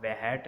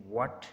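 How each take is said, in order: First: वहैट in two syllables with an audible H; वहैट as the mistaken reading, H pronounced after W; H wrongly sounded. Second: व्हाट with the H left silent; व्हाट starting on a clean W, no H sound. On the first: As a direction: break it into va-HAT, sounding the H. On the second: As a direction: say व्हाट as one syllable, just W then the vowel. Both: Shown as a demonstration. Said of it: "हम वहैट नहीं कहेंगे".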